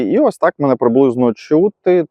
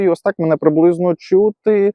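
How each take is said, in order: First: The voice has the medium level of noise suppression. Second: The voice has the strongest level of noise suppression. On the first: "Це другий режим шумозаглушення" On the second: "І це вже третій рівень шумозаглушення"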